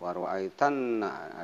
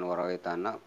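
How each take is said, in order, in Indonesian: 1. Bunyi n digandakan dan ditahan lebih lama. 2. Bunyi n pendek dan tidak ditahan. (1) "tapi waroaitanna, agak di tanah ada tasdid" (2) "bukan waroaitanna"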